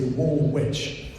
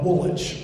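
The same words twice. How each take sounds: First: The name is pronounced the American way. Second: The name is pronounced the British way.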